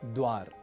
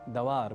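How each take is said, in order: First: The first two consonants are joined without a vowel. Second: An extra short a separates the first two consonants. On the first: The speaker calls it right. "जैसे एक शब्द है द्वार" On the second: The speaker calls it wrong. "द्वार के ड के बाद हम अतिरिक्त रूप से अ अक्षर जोड़ लेते हैं"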